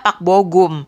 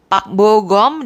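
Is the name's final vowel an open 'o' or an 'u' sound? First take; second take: u; open o. First: The last syllable has an u vowel. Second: The last syllable has an open o-like vowel. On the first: The speaker calls it wrong. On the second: The speaker calls it right.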